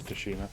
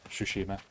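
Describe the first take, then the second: First: The word begins with a clear T sound. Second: The word begins without a T sound. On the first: The speaker calls it wrong. "Realised I was pronouncing that wrong" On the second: The speaker calls it right. "You're not meant to say T"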